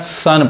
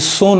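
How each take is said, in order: First: The vowel sounds like 'uh'. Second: The vowel sounds like 'oh'. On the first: The speaker calls it right. "सन पढ़ाएगा" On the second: The speaker calls it wrong. "वो अब ये सोन नहीं पढ़ाएगा"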